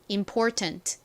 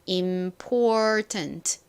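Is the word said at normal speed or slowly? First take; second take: normal; slowly. First: The word is said at normal speed. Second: The word is said slowly.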